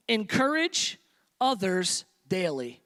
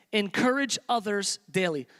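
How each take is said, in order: First: Others stretched slowly and stressed; slow stressed point. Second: Said in the usual way. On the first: Shown as a demonstration. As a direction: lay out "Encourage others daily" word by word, slowly.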